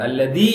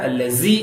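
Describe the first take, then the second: First: The middle consonant is a hard d sound. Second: The middle consonant is a hissing z sound. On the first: "தாலா சொல்லிடக்கூடாது ... அல்லதி இல்ல" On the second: "ஜாவாவும் சொல்லக்கூடாது ... அல்லசி இல்ல"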